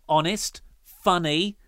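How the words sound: There is a comma pause after honest.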